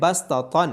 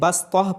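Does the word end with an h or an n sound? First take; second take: n; h. First: The word ends with an n sound. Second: The word ends with a soft h sound. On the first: The reciter does not stop after this word. "Word है बसतन" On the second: The reciter stops after this word. "यहाँ पे स्टॉप होने की वजह से बसतह पढ़ा जा रहा है"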